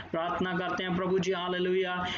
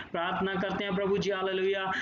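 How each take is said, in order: Both takes have the same delivery.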